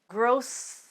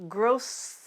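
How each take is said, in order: The two takes are said the same way.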